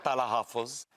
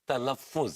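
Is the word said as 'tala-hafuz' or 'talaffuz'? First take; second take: tala-hafuz; talaffuz. First: The word is said as tala-hafuz. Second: The word is said as talaffuz. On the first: The speaker calls it wrong. "It's not तलाहफुज" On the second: The speaker calls it right. "It's तलफ्फुज"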